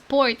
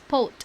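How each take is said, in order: First: The word is said with an R sound. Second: The word is said without an R sound. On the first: "they do not pronounce it as port" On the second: "it's pot"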